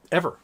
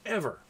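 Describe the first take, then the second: First: Said in the usual way. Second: Ever said softer and slightly higher, falling, for weight; quiet emphatic repeat. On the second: Real, not acted. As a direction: drop the voice and let Ever sink in.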